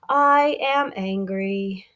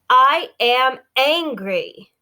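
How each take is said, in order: First: It is said in a soft, gentle voice. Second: It is said in an angry, forceful voice.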